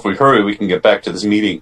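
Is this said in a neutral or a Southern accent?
neutral. It is said without a Southern accent. The speaker calls it wrong.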